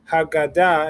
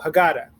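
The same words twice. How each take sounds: First: It is said with Modern Hebrew vowels and stress. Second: It is said with American Jewish vowels and stress. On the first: "say it the correct way and with the pronunciation that we're working on"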